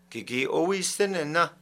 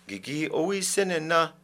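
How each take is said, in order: Both takes have the same delivery.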